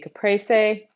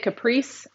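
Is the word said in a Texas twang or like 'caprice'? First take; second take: Texas twang; like caprice. First: The word is said in a Texas twang. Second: The word is said to sound like 'caprice'. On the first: "That's my Texas twang girl way of pronouncing it" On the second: "I'm going to say you're saying it wrong"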